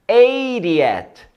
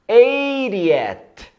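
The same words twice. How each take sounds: No difference in how they are said.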